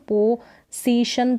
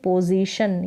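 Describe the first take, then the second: First: The middle consonant is an s sound. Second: The middle consonant is a z sound. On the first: The speaker calls it wrong. "पोजीशन तो नहीं बोलेंगे" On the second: The speaker calls it right. "यहाँ एस का उच्चारण ज"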